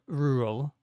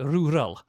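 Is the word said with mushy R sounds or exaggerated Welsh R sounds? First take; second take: mushy; Welsh. First: The R sounds are barely pronounced and mushy. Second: The R sounds are strong, exaggeratedly Welsh. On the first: "I don't pronounce the R's properly at all ... It's just like kind of mush mouth" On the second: "I go over the top and sound super duper Welsh"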